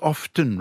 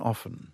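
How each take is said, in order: First: The T sound is pronounced in the middle. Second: The T sound is left out entirely. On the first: The speaker calls it wrong. "an extra consonant where you don't want" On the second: The speaker calls it right. "rather than"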